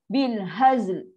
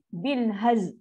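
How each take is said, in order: First: The phrase ends on a clear l sound. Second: The phrase ends on z, with no l. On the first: The speaker calls it right. "itu bunyi dia" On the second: The speaker calls it wrong. "orang baca salah sebab apa? Dia lam dia tak masuk"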